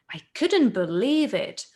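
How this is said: It is said with strong, lively feeling. The speaker calls it right. "you need to feel it"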